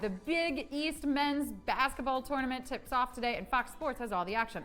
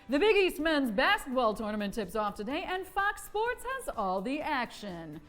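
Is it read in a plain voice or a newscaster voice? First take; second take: plain; newscaster. First: It is read in a plain, ordinary voice. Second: It is read in a news broadcaster voice.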